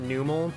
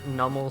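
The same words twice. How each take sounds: First: The first syllable does not sound like 'numb'. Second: The first syllable sounds like 'numb'. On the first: This is how the speaker has always said it. "I've always pronounced it Numel" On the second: The name comes from its Num species name. "Numel seems more likely because it's the Num Pokemon"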